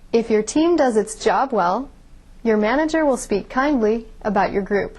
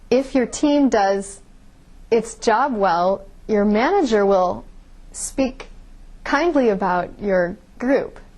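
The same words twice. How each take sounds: First: Three pauses fall between the word groups. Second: Pauses break up the middle of word groups. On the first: The speaker calls it right. "You could read that sentence with only three pauses" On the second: The speaker calls it wrong. "I put pauses in all the wrong places"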